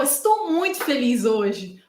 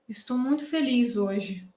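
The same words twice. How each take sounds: First: Slow, emphatic happy declaration. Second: Low, slow, subdued sad voice; sad lament. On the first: Showing viewers how intonation changes a sentence, happy. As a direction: stretch it out with clear, heartfelt happiness. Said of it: "Agora, se eu falo". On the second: Showing how written words hide the tone, sad lament. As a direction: say it like a murmured lament, drawn out and soft. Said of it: "quase um sussurro de lamento". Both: Shown as a demonstration.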